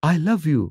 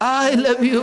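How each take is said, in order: First: It is said in a plain, natural voice. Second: It is said in an exaggerated, put-on voice. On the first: This is how the line was really delivered. The speaker calls it right. "ওটা ছিল এরকম" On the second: This is how imitators caricature the line. The speaker calls it wrong. "যারা আমার mimicry করে প্রথমে শরীরের আড়মোড়া ভাঙে"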